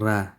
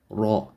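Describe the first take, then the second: First: The r is light, with a thin mouth. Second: The r is heavy, with a full mouth. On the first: The speaker calls it wrong. "not ra" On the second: The speaker calls it right. "the raw is heavy, full mouth"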